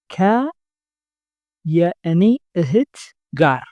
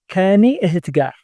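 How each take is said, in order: First: Ka and yani are said as separate words. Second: Ka and yani merge into one word, kani.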